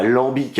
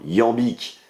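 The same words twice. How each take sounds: First: Lambique said with an L, corrected right after; mock-wrong lambique, with an L sound at the start; lambique, the mistaken L version; wrong pronunciation. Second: Iambique said with a y glide, not an L; correct pronunciation. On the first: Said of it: "pas lambique, hein, iambique". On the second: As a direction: iambique slowly and carefully, like yambique. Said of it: "pas lambique". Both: Shown as a demonstration.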